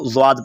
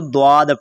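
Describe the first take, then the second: First: ज़्वाद with a z at the start; z-sound ज़्वाद; Zwaad pronunciation. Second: द्वाद with a d at the start; d-sound द्वाद; Dwaad pronunciation. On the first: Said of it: "वो इसको ज़्वाद पढ़ते हैं". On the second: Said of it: "कुर्रा हजरात इसको द्वाद पढ़ते हैं". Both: Shown as a demonstration.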